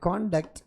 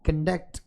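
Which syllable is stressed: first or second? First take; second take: first; second. First: The stress is on the first syllable. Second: The stress is on the second syllable. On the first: The word is a noun. "ఇది noun అవుతుంది" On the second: The word is a verb. "ఇది verb అవుతుంది"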